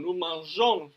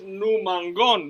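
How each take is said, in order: First: NU MANJÓN with a soft "zh" before "on"; soft g sound. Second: NU MANGÓN with a hard g as in "go"; hard g, wrong form. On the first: Teacher giving the correct form, soft g. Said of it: "pone una E". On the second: Teacher showing the mistaken form, hard g. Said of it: "no es nu mangón". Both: Shown as a demonstration.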